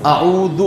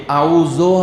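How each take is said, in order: First: اعوذ ending in "u", as "a'oodhu"; correct damma. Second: اعوذ ending in "o", as "a'oozo"; wrong vowel. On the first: Teacher modelling what was recited, correct damma. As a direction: finish اعوذ on a short "oo". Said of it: "کیا کہا؟". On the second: Teacher showing what not to recite, wrong vowel. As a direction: say اعوذ with a final "oh". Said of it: "ہم نے نہیں کہا". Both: Shown as a demonstration.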